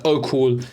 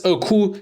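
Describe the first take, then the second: First: Said in the usual way. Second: Imitating her reply with a higher rising voice; a mock-sweet, airy reply from the girl; mock girly oh cool. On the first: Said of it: "she gives". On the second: Coach mimics the girl's reply, higher and rising. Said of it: "Anyway, she says".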